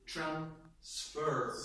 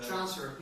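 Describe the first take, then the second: First: The stress is on the second syllable. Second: The stress is on the first syllable. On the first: It is a verb. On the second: It is a noun.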